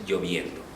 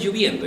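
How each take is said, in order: First: "lloviendo" said with o, as lloviendo, softly; correct pronunciation. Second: "lloviendo" said as lluviendo, with u; wrong pronunciation. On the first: Teacher gives students the correct lloviendo, softly. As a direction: give the right "lloviendo" quietly. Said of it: "es lloviendo". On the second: Teacher imitates the error lluviendo for the class. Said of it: "No es lloviendo". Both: Shown as a demonstration.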